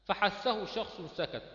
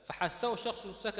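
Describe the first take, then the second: First: Slow recited mnemonic. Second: Said in the usual way. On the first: Shown as a demonstration.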